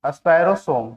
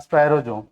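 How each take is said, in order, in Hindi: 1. अंतिम अक्षर s ध्वनि से शुरू होता है। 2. अंतिम अक्षर z ध्वनि से शुरू होता है। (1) "हिंदी में सोम" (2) "इंग्लिश में इसका प्रोनाउंसिएशन चेंज हो जाता है, जोम"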